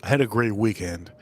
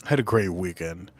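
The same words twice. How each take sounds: First: Said in the usual way. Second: Dreamy, softer. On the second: Real, not acted. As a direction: lower and softer, savouring the memory. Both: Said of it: "Just in case you guys ask".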